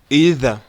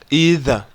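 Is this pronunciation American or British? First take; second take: American; American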